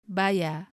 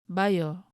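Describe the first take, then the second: First: The word ends in an A, without R. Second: The word ends in an O sound. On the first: "The R is dropped" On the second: "It's totally changed to O instead of A R"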